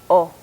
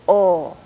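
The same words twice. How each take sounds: First: The vowel is held briefly. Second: The vowel is held for longer. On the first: "a short vowel" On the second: "a long vowel"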